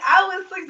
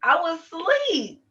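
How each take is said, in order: First: High mock-innocent voice, as if just woken; high innocent lie. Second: Innocent lie. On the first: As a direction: play it sweet and high to sell the lie. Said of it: "So now I get an attitude". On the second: Retold or imitated. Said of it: "I'm like".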